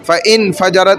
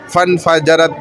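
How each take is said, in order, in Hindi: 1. 'fa' के बाद एक अलग 'in' अक्षर आता है। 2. 'n' सीधे 'fa' से जुड़ जाता है। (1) "फ़इन फजरत नहीं पढ़ ले" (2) "फन फजरत पढ़ ले हम इसको"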